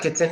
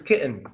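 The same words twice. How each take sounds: First: The T sound is clearly pronounced. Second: The T sound is silent. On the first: The speaker calls it wrong. "That's not" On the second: The speaker calls it right. "silent T"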